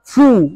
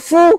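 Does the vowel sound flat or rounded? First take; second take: rounded; flat. First: The vowel is said with lips rounded forward. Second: The vowel is said with flat, unrounded lips. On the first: The speaker calls it right. "Bacanya harus fu, monyong ke depan" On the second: The speaker calls it wrong.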